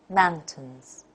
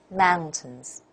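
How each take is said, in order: Both takes have the same delivery.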